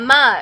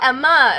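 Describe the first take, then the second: First: The stress is on the first syllable. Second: The stress is on the last syllable. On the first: "I didn't say her name wrong the first time" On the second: "putting the emphasis on the last syllable instead of the front one"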